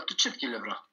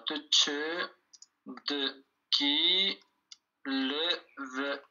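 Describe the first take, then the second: First: Said in the usual way. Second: Slow "te tche de qui lèvera" with pauses between pieces; syllable by syllable. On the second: Shown as a demonstration. Teacher writing out the question, "te tche de qui lèvera" syllable by syllable.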